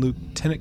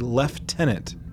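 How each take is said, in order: First: Lieutenant is said with an American pronunciation. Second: Lieutenant is said with a British pronunciation.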